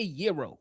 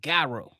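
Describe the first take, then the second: First: It is said the way Chicagoans do not say it. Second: It is said the way Chicagoans say it. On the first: This is not how locals in the city say it. The speaker calls it wrong. "That's what we don't say" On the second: This is how locals in the city say it. The speaker calls it right. "We say Gyro in Chicago"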